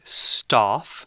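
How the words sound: It is said with a British accent. "if you're from the U K, you would probably say staff"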